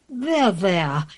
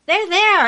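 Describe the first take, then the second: First: Lower, falling comfort; lightly voiced royal reassurance, pitched down; soothing queen. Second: High, louder sing-song comfort; pitched-up storybook reassurance; soothing dairymaid. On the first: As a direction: console like a storybook queen. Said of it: "The Queen said". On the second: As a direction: console brightly in a high dairymaid voice. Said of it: "The dairymaid said". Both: A narrator's reading.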